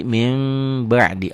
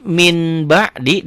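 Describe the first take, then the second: First: MIN BA'DI as "mim ba'di", long held m; iklab reading. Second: MIN BA'DI with a clear n; written form. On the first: Teacher shows the reading, n turned to m. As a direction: turn the n into a hummed M. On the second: Teacher reads it as written, clear n. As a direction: sound the N before ba, raised voice. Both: Shown as a demonstration. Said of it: "dibacanya jadi".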